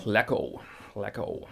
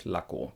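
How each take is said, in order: First: "Lacko" with a flat English a. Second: "Lacko" with an open German ah. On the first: Teacher showing the common English "Lacko". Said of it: "Common mistake here". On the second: Teacher modelling the German a in "Lacko". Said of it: "the German A is A". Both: Shown as a demonstration.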